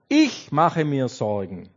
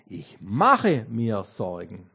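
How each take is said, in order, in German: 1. Die Betonung liegt auf dem Wort ich. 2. Die Betonung liegt auf dem Wort mache.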